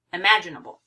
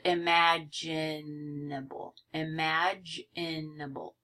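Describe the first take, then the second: First: Said in the usual way. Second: "imaginable" slow and lower, in separate syllables. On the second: Shown as a demonstration. Teacher counting out five syllables, syllable by syllable. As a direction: break "imaginable" into i-ma-gi-na-ble, softly stretched. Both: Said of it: "It has five syllables".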